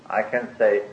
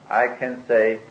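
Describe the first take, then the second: No difference in how they are said.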